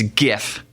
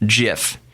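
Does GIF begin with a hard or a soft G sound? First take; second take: hard; soft. First: It begins with a hard G sound. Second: It begins with a soft J sound. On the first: The speaker calls it right. "the G in graphics ... So it's" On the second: The speaker calls it wrong. "If it was giraffe interchange format, it would be pronounced"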